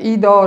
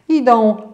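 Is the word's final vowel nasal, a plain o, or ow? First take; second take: o; nasal. First: The final vowel is a plain oral o. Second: The final vowel is a nasal ą sound. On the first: The speaker calls it wrong. "Zastąpienie litery ą przez dźwięk o ... karykatura" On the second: The speaker calls it right. "czytamy zawsze jak ą"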